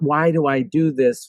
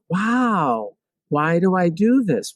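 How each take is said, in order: First: It is said in an angry tone. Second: It is said in a curious tone.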